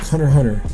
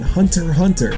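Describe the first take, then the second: First: The T sounds in Hunter are dropped. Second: The T sounds in Hunter are clearly pronounced. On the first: The speaker calls it right. "I don't pronounce the T's" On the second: The speaker calls it wrong. "Some people pronounce it with the T's"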